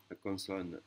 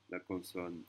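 No difference in how they are said.

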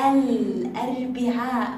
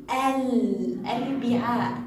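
First: الأربعاء slow, the lam in الأربعاء clearly sounded; clear moon lam. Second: Said in the usual way. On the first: Shown as a demonstration. Teacher shows pupils the lam is pronounced, slow and clear. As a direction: stretch الأربعاء so the lam is heard. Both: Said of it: "لاحظوا الأربعاء".

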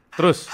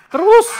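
First: Said in the usual way. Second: High-pitched shout, rising at the end; calling out. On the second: Real, not acted. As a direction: call out sharply to someone moving away. Berseru ke Bambang yang menjauh. (berseru nyaring dengan nada tinggi)

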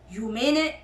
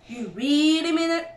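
First: First, restrained disbelief; incredulous question. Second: Higher, louder disbelief stressing "really"; amazed cry. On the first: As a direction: ask at usual pitch, barely daring to believe. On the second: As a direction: stretch "really" in rising amazement. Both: A narrator's reading. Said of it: "cried Badger".

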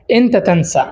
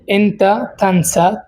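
First: Said in the usual way. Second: এনতা তানসা stretched out slowly, syllable by syllable; slow teacher's repeat of এনতা তানসা; slow model pronunciation. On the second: Shown as a demonstration. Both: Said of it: "তো প্রথম শব্দ হচ্ছে আনসা".

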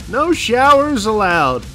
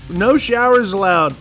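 No difference in how they are said.

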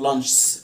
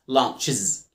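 First: "لانشز" as lanchs, no vowel before the s; wrong bare-s plural. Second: "لانشز" slowly as lan-chiz; correct es plural. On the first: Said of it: "غلط". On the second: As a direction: add a voiced iz syllable to end "لانشز". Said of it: "ما ينفعش أقول أحط اس بس". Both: Shown as a demonstration.

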